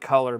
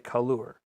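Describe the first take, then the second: First: The word is said in an American accent. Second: The word is said in a British-style accent. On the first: "Maybe they don't say color" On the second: "Maybe it does in Great Britain. Maybe they say color"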